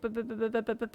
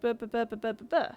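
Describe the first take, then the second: First: The syllables follow a flatter pitch line. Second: The syllables follow a more varied pitch line. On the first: It imitates an Indian accent. "Indian has has a bit of a flatter line than Welsh. Indian is like" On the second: It imitates a Welsh accent. "and then Welsh is like"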